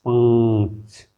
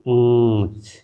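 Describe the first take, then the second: No difference in how they are said.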